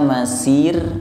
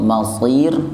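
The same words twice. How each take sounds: First: The 's' is thin, with a light plain sound. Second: The 's' is thick, with a heavy emphatic sound. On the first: It means a place of walking. The speaker calls it wrong. "masir berubah menjadi huruf sin" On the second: It means a place of return. The speaker calls it right. "Tebal sod masir"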